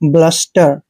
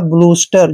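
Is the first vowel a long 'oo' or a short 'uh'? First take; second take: short uh; long oo. First: The first vowel is a short 'uh' sound. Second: The first vowel is a long 'oo' sound. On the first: The speaker calls it right. "ब्लस्टर पढ़ना है" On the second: The speaker calls it wrong. "जो कि गलत है"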